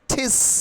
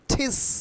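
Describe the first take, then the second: First: The t is breathy and aspirated, like Bengali ঠ. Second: The t is breathy and aspirated, like Bengali ঠ.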